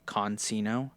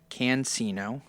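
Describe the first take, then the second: First: The first syllable sounds like 'con'. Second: The first syllable sounds like 'can'. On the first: The speaker calls it wrong. "I was saying, I think, Consino" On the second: The speaker calls it right. "Next is Richard Cancino"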